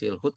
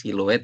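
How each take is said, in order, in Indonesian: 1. Kata ini berakhir dengan bunyi 'hut' yang pendek. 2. Kata ini berakhir dengan bunyi 'lu-et'. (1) "bukan silhut" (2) "tapi siluet"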